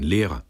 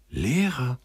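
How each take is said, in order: First: Said in the usual way. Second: High-pitched, wondering cry of delight; excited exclamation. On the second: A narrator's reading. Sender learns the soldier wanted to teach, thrilled. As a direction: echo it high, as if eyes light up. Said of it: "rief Sender, und seine Augen leuchteten".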